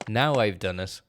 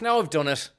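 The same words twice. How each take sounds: First: It is said with gloating, evil glee. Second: It is said with dismay, like an accident. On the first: The speaker harmed someone on purpose. The speaker calls it wrong. "it sounded like evil, like, ha ha ha" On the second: The speaker regrets a careless mistake. The speaker calls it right. "what he was meant to have said was, ah, fuck"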